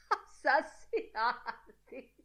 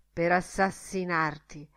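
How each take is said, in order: First: High, slow, laugh-broken word. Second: Said in the usual way. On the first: A narrator's reading. Mulligan laughing at his own murder warning, high cackling laughter. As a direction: burst out laughing through the word. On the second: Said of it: "con aria d'ammonimento".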